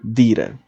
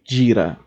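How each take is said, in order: First: The D before I sounds like a plain d. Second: The D before I sounds like English j.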